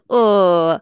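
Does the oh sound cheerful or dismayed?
dismayed. The oh sounds dismayed and complaining. The situation is seen as a nuisance. "der eine sagt so"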